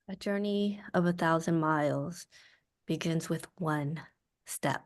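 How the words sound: It sounds quietly angry and upset.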